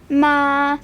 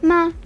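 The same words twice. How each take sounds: First: It is said with the first tone. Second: It is said with a light neutral tone. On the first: It means mother. "first tone is would be ma" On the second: It marks a question. "a neutral kind of tone"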